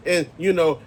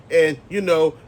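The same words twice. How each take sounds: The two takes are said the same way.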